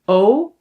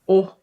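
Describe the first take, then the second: First: The vowel is held long. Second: The vowel is cut short. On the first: "long pronunciation" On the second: "we can also pronounce them short"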